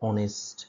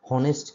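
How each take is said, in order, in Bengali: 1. শব্দটি একটি স্বরধ্বনি দিয়ে শুরু হয়, কোনো h ধ্বনি নেই। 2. শব্দটি একটি স্পষ্ট h ধ্বনি দিয়ে শুরু হয়। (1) "এর যে উচ্চারণ সেটা হচ্ছে অনেস্ট" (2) "হনেস্ট কিন্তু না"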